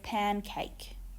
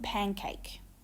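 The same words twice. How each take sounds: First: The n sound is kept clear and unchanged. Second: The n sound shifts toward the following k. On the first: "instead of"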